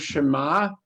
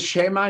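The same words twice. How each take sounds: First: The stress is on the last syllable. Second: The stress is on the first syllable.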